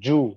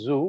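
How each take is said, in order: First: The word begins with a j sound. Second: The word begins with a buzzing z sound. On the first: The speaker calls it wrong. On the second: The speaker calls it right. "instead of pronouncing the word as zoo"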